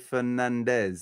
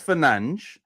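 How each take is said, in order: First: The name ends with a z sound. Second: The name ends with an s sound. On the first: This treats the name as if it were Spanish. The speaker calls it wrong. "English do always say Fernandez, like if he was like he was Spanish. So with a Z" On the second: This is how the player's own language says it. The speaker calls it right. "So that's Fernandes"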